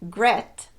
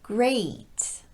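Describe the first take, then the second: First: The vowel is a short steady e sound. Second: The vowel glides quickly into an ee sound. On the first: The speaker calls it wrong. "is not pronounced gret" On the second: The speaker calls it right. "but rather great. Notice how quickly I'm transitioning to that E sound"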